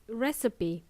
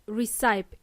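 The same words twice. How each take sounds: First: "recipe" as RESS-uh-pee, three syllables; correct recipe. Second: "recipe" as ree-SIPE, silent final e; mispronounced recipe. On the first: Teacher correcting learners, recipe as ress-uh-pee. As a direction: stress the first syllable of "recipe", ending on pee. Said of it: "it's pronounced as recipe". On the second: Teacher showing learners the mistake, recipe as ree-sipe. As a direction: say "recipe" in two syllables, rhyming with wipe. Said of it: "It's not pronounced as recipe". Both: Shown as a demonstration.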